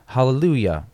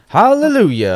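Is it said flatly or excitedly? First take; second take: flatly; excitedly. First: It is said flatly, without excitement. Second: It is exclaimed with excitement and energy.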